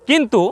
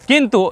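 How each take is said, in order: The two takes are said the same way.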